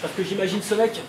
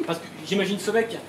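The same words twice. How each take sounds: The two takes are said the same way.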